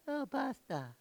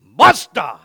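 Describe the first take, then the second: First: Mock half-hearted "Oh, basta", high and soft; imitating feeble response. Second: Explosive, loud "Basta"; forceful demo. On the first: Preacher mimicking how the congregation said it, mock-feeble and soft. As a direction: mimic a timid, weak "Oh, basta". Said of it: "Yeah, y'all like". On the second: Shown as a demonstration. Preacher showing the congregation how to say it, forceful shout. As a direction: punch out "Basta" with full force. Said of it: "you gotta do it like this".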